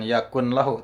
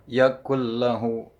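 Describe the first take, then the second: First: The n sound is pronounced clearly before lahu. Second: The n merges into a doubled l sound. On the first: The speaker calls it wrong. "bukan yakun lahu" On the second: The speaker calls it right. "tapi yakul lahu"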